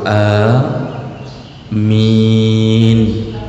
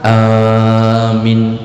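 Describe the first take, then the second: First: The first vowel is moderately long, the second long. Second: The first vowel is very long, the second short. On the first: The speaker calls it right. "Jadi panjang a cukup dua" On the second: The speaker calls it wrong. "jangan a nya panjang sampai enam harakat, minnya tidak panjang"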